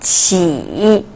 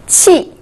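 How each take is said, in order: First: The pitch dips low, then rises. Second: The pitch falls sharply from high.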